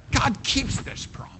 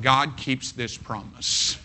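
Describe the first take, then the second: First: High breathy whisper of the promise; hushed whispered emphasis. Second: Said in the usual way. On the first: Shown as a demonstration. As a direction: whisper it like a secret. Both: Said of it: "repeated for emphasis".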